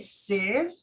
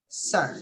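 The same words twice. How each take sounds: First: The vowel is said as an 'i' sound. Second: The vowel is said as an 'e' sound. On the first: The speaker calls it wrong. "If you say sir, that sounds weird" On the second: The speaker calls it right. "it's better with an e sound"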